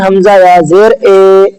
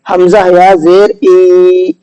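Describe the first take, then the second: First: The final vowel is an 'ay' sound. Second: The final vowel is a long 'ee' sound. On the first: The speaker calls it wrong. "तो ये ए पढ़ना ये मजहूल हो जाएगा" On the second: The speaker calls it right. "तो ये है आपका मारूफ।"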